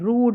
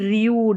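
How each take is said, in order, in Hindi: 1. स्वर सादा, लंबी 'oo' ध्वनि है। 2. स्वर में 'oo' से पहले 'y' की ग्लाइड है। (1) "यू को ऊ करके पढ़ा जा रहा है" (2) "ना कि रियूड"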